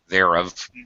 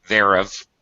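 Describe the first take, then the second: First: The two words merge into one contracted syllable. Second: The two words merge into one contracted syllable.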